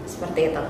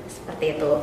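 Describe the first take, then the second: The two takes are said the same way.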